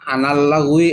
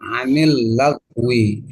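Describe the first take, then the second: First: The linking vowel after an is a. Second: The linking vowel after an is i. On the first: The speaker calls it wrong. "Jangan kita berubah pada patah anal lagwi" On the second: The speaker calls it right. "yaitu kasroh anil lagwi"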